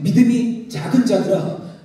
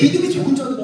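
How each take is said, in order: First: It is said in a gentle, comforting tone. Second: It is said in an angry, scolding tone. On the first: The disciples are being encouraged. The speaker calls it right. "주님의 위로와 도전의 말씀" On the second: The disciples are being rebuked. The speaker calls it wrong. "예수님 마치 화낸 것 같아요"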